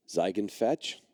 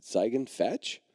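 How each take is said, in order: First: Ziegen fetch? asked with a rising, questioning tune. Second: Ziegen fetch? with fetch rising like a question; no command in "Ziegen fetch?", just a hopeful question. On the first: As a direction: say "Ziegen fetch?" as a gentle question, not a command. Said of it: "I said it with a question mark". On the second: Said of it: "I didn't say it like a command". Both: Retold or imitated.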